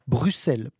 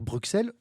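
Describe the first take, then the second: First: The middle consonant is pronounced as 'ss'. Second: The middle consonant is pronounced as 'ks'. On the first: This is how it has long been said in Belgium. "certains le prononceront Bruxelles" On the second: This follows the etymology of the name. "on entend donc le x"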